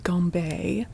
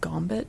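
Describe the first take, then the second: First: The name ends with a 'bay' sound. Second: The name ends with a 'bit' sound. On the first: It keeps the French pronunciation. "looks like it's probably like French or was French, which would be gambé" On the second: It uses an Americanized pronunciation. "since this is set in America, would that have become Gambit?"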